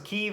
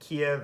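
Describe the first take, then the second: First: The name is pronounced the Ukrainian way. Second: The name is pronounced the Russian way. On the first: "is the Ukrainian pronunciation" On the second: "is the Russian pronunciation"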